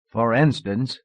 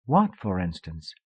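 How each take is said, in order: First: Laughing through the words; with a light laugh, amused. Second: Said in the usual way. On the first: Acted. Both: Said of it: "he laughed".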